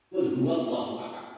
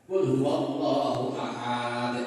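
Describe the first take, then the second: First: The vowels are kept short. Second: A vowel that should be short is drawn out. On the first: The speaker calls it right. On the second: The speaker calls it wrong.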